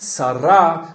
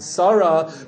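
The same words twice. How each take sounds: First: The stress is on the last syllable. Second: The stress is on the first syllable. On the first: "with a strong trend to milara. Things go at the end" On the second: "not David and Sarah"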